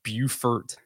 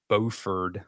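First: The first syllable sounds like 'bew'. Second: The first syllable sounds like 'bo'. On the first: "Beaufort, South Carolina" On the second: "Beaufort, North Carolina"

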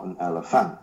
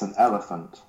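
First: A later syllable of 'elephant' is stressed. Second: The first syllable of 'elephant' is stressed. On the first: The speaker calls it wrong. "not an elephant" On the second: The speaker calls it right. "So you accent the first beat there, the first note"

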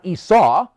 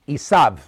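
First: The name ends in a vowel sound. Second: The name ends in a v sound. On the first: The speaker calls it wrong. "not Esau" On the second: The speaker calls it right. "directly in the Hebrew"

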